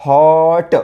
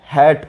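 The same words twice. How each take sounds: First: हॉट with a long open "o"; correct phonics reading. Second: हॅट with an open "a" as in cat; short हॅट, front vowel instead of "o"; wrong reading. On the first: Teacher giving the right reading, हॉट drawn out. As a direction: stretch हॉट out, then release ट. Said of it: "काय म्हणतो?". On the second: Teacher showing what not to say, हॅट with a. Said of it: "आपण हॅट म्हणतो का?". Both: Shown as a demonstration.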